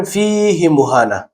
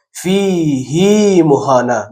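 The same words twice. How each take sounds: First: «فیه مهانا» with the ه in فیه kept short. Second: «فیه مهانا» slowly, the ه in فیه drawn long as hee; stretched hi in فیه. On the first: Teacher shows the rule reading without stretch. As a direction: clip the ه of فیه. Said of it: "باید بخوانیم". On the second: Teacher shows the exception reading with ishba. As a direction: lengthen the ه of فیه. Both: Shown as a demonstration.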